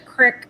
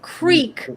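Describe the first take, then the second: First: The word is said with a short 'ih' vowel. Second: The word is said with a long 'ee' vowel. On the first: The speaker calls it right. "It's the crick" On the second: The speaker calls it wrong. "It's not the creek"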